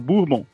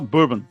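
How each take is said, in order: First: It is said with Brazilian Portuguese sounds. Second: It is said with American English sounds. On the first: Brazilians would understand it. "quando a gente fala brasileirado, a gente fala bourbon" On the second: A bartender in the United States would understand it. "Então você tem que falar bourbon"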